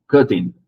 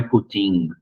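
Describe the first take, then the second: First: "cutting" punched on CUT-, louder; correct first stress. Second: "cutting" with the stress moved onto -TING; wrong final stress. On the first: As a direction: say "cutting" as CUT-ting, falling away. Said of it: "não é cutting". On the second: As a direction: say "cutting" as cut-TING, weak first syllable. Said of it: "você vai marcar uma força a mais". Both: Shown as a demonstration.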